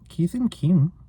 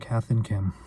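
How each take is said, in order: First: It is said in a put-on Australian accent. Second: It is said in the speaker's normal accent.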